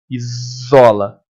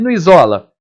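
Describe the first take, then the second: First: Slow "Isola" with a long buzzing z; drawn-out Z sound. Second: Said in the usual way. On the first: Shown as a demonstration. Teacher checking the sound for students, "Isola" with z stretched. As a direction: hold the s of "Isola" as a z. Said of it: "Faz esse som". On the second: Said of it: "No isola também".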